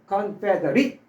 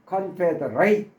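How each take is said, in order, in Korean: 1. 마지막 음절이 'it'처럼 들려요. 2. 마지막 음절이 'ate'처럼 들려요. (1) "is로 발음하면" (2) "a스로 발음할 때는 동사예요"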